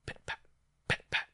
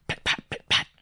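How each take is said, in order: First: Distant pattering footsteps. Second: Loud, percussive pit-pat; footsteps almost here. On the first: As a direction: imitate faint paws far away. Distant footsteps approaching, imitated. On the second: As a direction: imitate paws rushing right up. Footsteps rushing up, imitated. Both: A narrator's reading.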